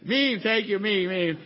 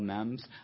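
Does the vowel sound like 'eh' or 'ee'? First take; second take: ee; eh. First: The vowel is a long 'ee' sound. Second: The vowel is a short 'eh' sound. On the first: The speaker calls it right. "It's a meme" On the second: The speaker calls it wrong. "Did I say it right"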